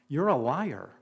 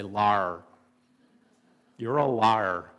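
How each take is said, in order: First: Said in the usual way. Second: Low drawn-out Indiana "Lar", Indiana twang on "liar"; playful Indiana accent imitation. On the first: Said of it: "If I was still in Indiana". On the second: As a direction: say "liar" like a Hoosier, squashed to "Lar". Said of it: "If I was still in Indiana, I would say".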